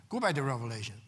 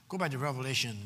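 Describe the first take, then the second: No difference in how they are said.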